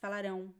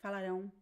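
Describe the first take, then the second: No difference in how they are said.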